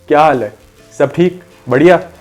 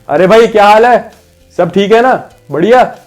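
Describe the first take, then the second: First: It is said moderately loud, as to someone farther. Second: It is said loudly, as to someone far away.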